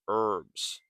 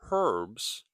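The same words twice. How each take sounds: First: The word begins with a vowel sound. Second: The word begins with an h sound. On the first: The speaker calls it right. "we say herbs" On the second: The speaker calls it wrong. "It is written with an H, but we don't say herbs"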